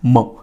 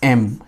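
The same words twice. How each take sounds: First: It starts with a consonant sound. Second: It starts with a vowel sound. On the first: The speaker calls it wrong. "We do not say M" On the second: The speaker calls it right. "we say M"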